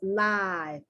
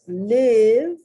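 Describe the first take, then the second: First: It is said as in a show taped live. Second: It is said as the verb meaning to live. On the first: It means happening in real time. "It is being taped live" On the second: It means to be alive or reside. "which is the noun to live, verb to live"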